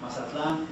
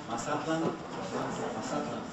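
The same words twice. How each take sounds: First: Mazatlan stressed on the last syllable, ma-za-TLAN; Hispanicized stress. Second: Mazatlan stressed on the middle syllable, ma-ZA-tlan; Nahuatl stress. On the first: Teacher contrasting for students, ma-za-TLAN. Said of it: "is the Hispanicized pronunciation". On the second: Teacher leading the class, ma-ZA-tlan. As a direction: put the weight on ZA in Mazatlan. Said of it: "second from last". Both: Shown as a demonstration.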